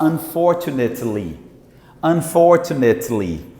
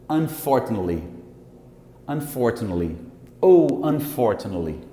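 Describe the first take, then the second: First: "Unfortunately" as un-for-tu-net-li, every syllable; full unreduced "unfortunately"; full textbook form. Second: "Unfortunately" as un-FORT-n-li; reduced form. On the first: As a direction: carefully sound the "net" in "unfortunately". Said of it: "gramaticalmente eu teria que falar". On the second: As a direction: drop the "ate" from "Unfortunately". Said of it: "como se não tivesse isso aqui". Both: Shown as a demonstration.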